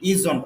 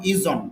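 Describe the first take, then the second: First: It is said as one short contracted word. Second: It is said as one short contracted word.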